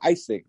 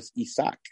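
First: The name is said with an English pronunciation. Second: The name is said with a Spanish pronunciation. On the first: This is how people unfamiliar with Spanish read it. The speaker calls it wrong. "when people are not familiar with the Spanish language, they're gonna read it like" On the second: This is how the name is pronounced in Spanish. The speaker calls it right. "no, it's Isaac"

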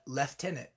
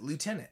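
First: It is said with a British accent. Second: It is said with an American accent. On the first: "every British person I know pronounce it" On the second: "That's how we pronounce it"

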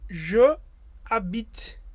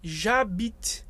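First: Both vowels are said separately, je then habite. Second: The vowel of je drops, joining into j'habite. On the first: The speaker calls it wrong. "nós não falamos je habite" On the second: The speaker calls it right. "a gente junta, a gente cola, a gente faz uma liaison"

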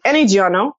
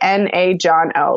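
First: The name is said with Nigerian inflection. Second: The name is said in an anglicized American way. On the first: It is how native speakers say it. "How you would hear a Nigerian person pronounce it" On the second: It is simplified so a non-native can pronounce it. "How I would say it to an American trying to pronounce it"

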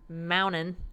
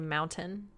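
First: The middle T sound is dropped. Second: The middle T sound is clearly pronounced.

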